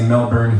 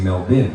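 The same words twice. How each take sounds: First: It is pronounced the American way. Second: It is pronounced the Australian way.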